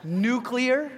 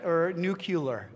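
First: "Nuclear" said NOO-klee-er, three clear syllables, with a laugh; carefully saying "Nuclear" as noo-klee-er, rising at the end. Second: "nuclear" said NOO-kyoo-ler, slowly, the folksy variant; slow, deliberate "nuclear" as noo-kyu-ler; nucular variant. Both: Shown as a demonstration. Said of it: "I can't even say it".

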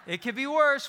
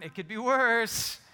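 First: Higher and louder, laughing it out; laughing exclamation, pitched up. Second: Slowed down, chuckling through it; drawn out with a laugh; a slow chuckling aside; slow amused aside. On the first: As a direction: burst out laughing at the line. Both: Real, not acted.

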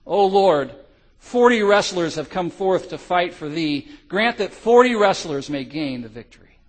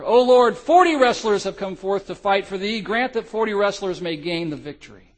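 First: Loud earnest prayer cry. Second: High, loud roaring prayer; roared with more vigor. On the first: Freezing soldiers crying out to God, loud fervent prayer. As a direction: lift the prayer up to the Lord. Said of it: "began to cry out now". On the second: Forty soldiers on the ice praying, high loud roar. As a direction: roar it out like a legion. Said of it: "roared with more vigor". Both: Acted.

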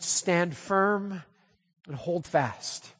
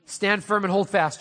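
First: Slow, weighty reading. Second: Said in the usual way. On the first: Shown as a demonstration. Preacher giving the opening message, slow and solemn. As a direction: stretch hold fast out slowly and softly.

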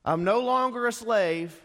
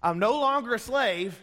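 First: Higher, louder triumphant proclamation; mock the proud Israelites; preacher mocking Israelites' boast, high and loud; mocking freed slave. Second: Higher, louder triumphant proclamation; mock the proud Israelites again with a wink; preacher mocking Israelites' boast, high and loud; mocking freed slave. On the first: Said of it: "let me make fun of them". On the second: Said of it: "Let me go back over here".

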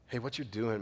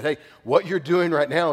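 First: Soft, gentle warning; said in love. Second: Loud, bold warning; bold prophet. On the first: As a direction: ease into it softly, like a caring friend. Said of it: "if they do it in love". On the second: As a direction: call them out boldly, like a prophet. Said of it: "would come in boldness". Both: Retold or imitated.

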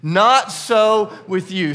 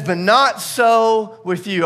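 First: Each word of "Not so with you" spaced and loud, stress on "not"; "Not so with you" said slowly, louder, with weight on "not"; slow emphatic declaration. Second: "But not so with you" slow and loud with stress on "not"; a congregation line with "not" punched; slow emphatic reading. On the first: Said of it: "I want you to say that with me". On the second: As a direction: read "But not so with you" slowly, leaning on "not". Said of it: "Say that again". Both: Shown as a demonstration.

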